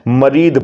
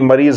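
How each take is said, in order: First: The word ends with a d sound. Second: The word ends with a z sound. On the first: This is the Arabic pronunciation. "यहां पर अरबी भाषा में मरीद बोलते हैं" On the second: This is the Urdu and Hindi pronunciation. "मरीज हम उर्दू में और हिंदी में बोलते हैं"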